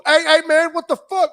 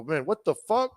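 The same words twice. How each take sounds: First: High, loud challenge from strangers; alarmed mock yell. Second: Restrained, puzzled question; mild retold bewilderment. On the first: Driver voicing men in the SUV at a stranger, alarmed yelling. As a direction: imitate startled men yelling at an intruder. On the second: Driver retelling his reaction to the windows rolling down, mildly bewildered.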